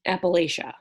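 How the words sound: It is said with the Illinois regional pronunciation. The speaker calls it wrong. "where I'm from in Illinois, it is pronounced"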